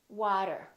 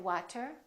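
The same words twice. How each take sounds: First: The t is a quick d-like sound. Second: The t is a clear, crisp t sound. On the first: The speaker calls it right. "we say" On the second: The speaker calls it wrong. "We don't say"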